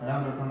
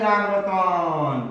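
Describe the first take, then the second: First: The vowels are short and quick. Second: The vowels are stretched out very long. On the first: The call is too weak to carry far. The speaker calls it wrong. "हास और स्वर की आवाज में" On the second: The call carries far enough to be heard. The speaker calls it right. "प्लुत स्वर में जब बोलोगे"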